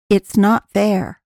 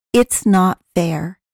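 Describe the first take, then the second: No difference in how they are said.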